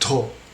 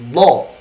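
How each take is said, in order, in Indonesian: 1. Konsonan diucapkan dengan desis. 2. Konsonan diucapkan tanpa desis. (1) "tidak perlu ada do" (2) "Jadi tidak ada desisan"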